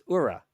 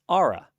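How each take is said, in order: First: The name begins with an 'oo' sound. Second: The name begins with an 'aw' sound. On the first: The speaker calls it wrong. "I said it wrong repeatedly" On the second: The speaker calls it right. "It's Aura, like A U R A"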